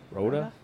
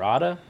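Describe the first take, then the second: First: Rhoda said ROH-duh; questioning "ROH-duh" for Rhoda; first vowel of Rhoda as in "road"; long-O pronunciation. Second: Rhoda said RAH-duh, with an "ah"; questioning "RAH-duh" for Rhoda; first vowel of Rhoda as in "father"; alternative pronunciation. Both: Shown as a demonstration. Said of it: "how would you pronounce it?".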